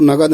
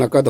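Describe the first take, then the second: First: The everyday spoken नगद, with g in the middle; common wrong form. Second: नकद said with a clear k, na-kad; the correct नकद, with a crisp k sound; correct form. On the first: Teacher showing how people usually say नगद. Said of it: "कहते हैं हम लोग नगद". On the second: Teacher giving students the right नकद. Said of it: "लेकिन नकद होता है". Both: Shown as a demonstration.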